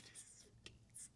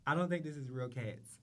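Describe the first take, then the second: First: Whispered with a laugh; breathy laughing whisper aside. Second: Said in the usual way. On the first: Real, not acted. Host whispers to viewers about fake cats, laughing.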